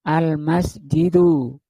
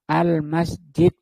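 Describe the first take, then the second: First: The word ends with a short vowel sound. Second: The word ends on a bare consonant. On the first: The speaker calls it right. "belakangnya tetap bunyi" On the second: The speaker calls it wrong. "Nggak boleh dibaca al-masjid"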